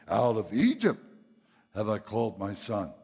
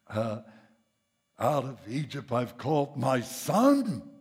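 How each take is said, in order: First: The stress falls on the word Egypt. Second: The stress falls on the words my son. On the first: The focus is on leaving Egypt. The speaker calls it wrong. "that's where we pound the pulpit. ... That's putting the emphasis on the wrong syllable" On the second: The focus is on who is called a son. The speaker calls it right. "because it ought to be"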